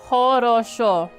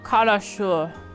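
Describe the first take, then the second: First: The word begins with a breathy h sound. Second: The word begins with a hard k sound. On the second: "I didn't have the ho. I went ko"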